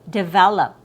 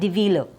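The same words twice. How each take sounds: First: The E vowel is short and relaxed. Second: The E vowel is a long ee sound. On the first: The speaker calls it right. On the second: The speaker calls it wrong.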